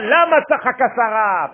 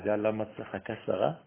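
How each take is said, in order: First: The question sounds reproachful and indignant. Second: The question sounds curious and inviting. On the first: The asker is offended that she laughed at him. The speaker calls it wrong. "C'est pas la matachaka Sarah. Pourquoi elle s'est moquée de moi" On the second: The asker wants to reveal why she laughed. The speaker calls it right. "Voilà l'autre intonation. Tu sais pourquoi Sarah rit?"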